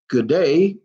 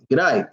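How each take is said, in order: First: Both words are said in full. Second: The words are squeezed into one short syllable. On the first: "instead of saying good day" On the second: "You shorten it"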